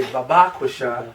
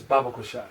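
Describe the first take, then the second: First: BABAK Shah stressed on the second syllable, ba-BAK; shifted inflection. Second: Said in the usual way. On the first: Shown as a demonstration. Teacher imitating certain brothers, Babak Shah with inflection on BAK. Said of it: "put more inflection on one part". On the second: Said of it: "less inflection on another part".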